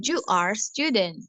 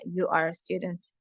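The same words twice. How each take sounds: First: "student" read singular, no final s; wrong form read out. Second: "students" with a clear final s; corrected plural. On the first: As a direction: reads "you are student" as printed. ("student" dibaca tanpa akhiran s) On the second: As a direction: fix it to "students", ending on s. ("students" dengan bunyi s di akhir) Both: Shown as a demonstration. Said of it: "ini kayaknya salah".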